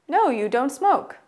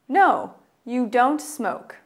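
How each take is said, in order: First: It is said at a faster pace. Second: It is said at a normal, slower pace.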